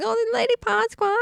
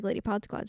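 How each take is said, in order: First: Much higher, drawn-up mock squeal; high-pitched gushing. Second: Said in the usual way. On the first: Host mocks how she keeps saying the hashtag, high-pitched. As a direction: imitate your own high coo. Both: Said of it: "Sorry, I keep going".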